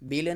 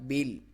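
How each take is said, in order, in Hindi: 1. ल के बाद एक अतिरिक्त स्वर जोड़ा जाता है। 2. ल को बिना उसके बाद किसी स्वर के रोका जाता है। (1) "बेला नहीं करना" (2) "लाम साकिन को हिलाना नहीं है"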